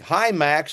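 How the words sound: It is said in the speaker's natural voice.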